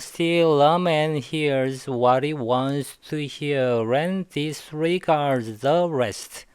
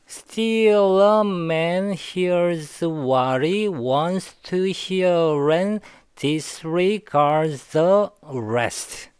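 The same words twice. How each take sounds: First: The sentence is read at a faster pace. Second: The sentence is read at a slower pace. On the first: "마지막으로 조금 더 빨리 한번 읽어볼게요" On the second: "다시 한번요"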